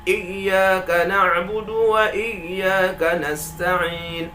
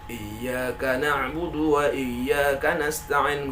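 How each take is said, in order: First: Slow chant, raised stress on each "Iyyaka"; an-nabr on iyyaka. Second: "iyyaka" unstressed in a slow, level chant; flat recitation. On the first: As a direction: lean firmly into the opening of "iyyaka". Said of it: "Tapi kita nabarkan di huruf alif". ("iyyaka" ditekan dan dinaikkan, pelan) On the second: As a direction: chant it evenly, no lift on "iyyaka". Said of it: "nah itu kan datar". ("iyyaka" dibaca datar, pelan) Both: Shown as a demonstration.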